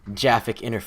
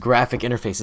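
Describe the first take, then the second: First: The word begins with a soft j sound. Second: The word begins with a hard g sound. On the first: The speaker calls it wrong. "It's not Jaffic interface" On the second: The speaker calls it right. "It's graphic interface"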